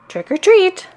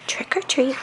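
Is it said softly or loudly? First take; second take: loudly; softly. First: It is said a little louder. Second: It is said very softly.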